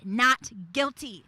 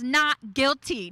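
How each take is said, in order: First: A softer, gentler "Not guilty."; tender "Not guilty."; soft verdict. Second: A slow, firm "Not guilty."; slow, weighty "Not guilty."; slow firm verdict. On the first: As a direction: let "Not guilty." fall softly. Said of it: "he has said". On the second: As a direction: deliver "Not guilty." slowly and firmly. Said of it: "a verdict over you that says". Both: Retold or imitated.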